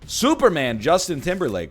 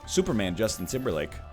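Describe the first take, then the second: First: It is said in a put-on news reporter voice. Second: It is said in a plain, ordinary voice.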